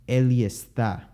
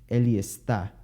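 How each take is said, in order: Both takes have the same delivery.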